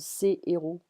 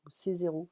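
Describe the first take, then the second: First: No z sound links ses to the next word. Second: A z sound links ses to the next word. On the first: The speaker calls it right. "So, ses héros" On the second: The speaker calls it wrong. "I'm not gonna say ses zéros because it's like these zeros"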